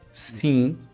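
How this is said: It is said with a nasal ee-like vowel. "the same way we regular continental folks say"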